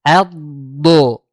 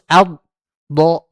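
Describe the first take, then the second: First: Ad flowing into do., loud; ad, do. said joined; right joined reading. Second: Ad and do. split apart, loud; broken reading of Ad, do; wrong broken reading. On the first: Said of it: "Yang benar". (bacaan benar mengalir) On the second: (bacaan salah terputus) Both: Shown as a demonstration.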